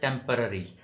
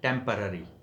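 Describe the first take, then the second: The two takes are said the same way.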